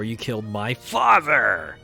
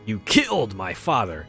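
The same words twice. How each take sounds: First: The stress falls on the word father. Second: The stress falls on the word killed.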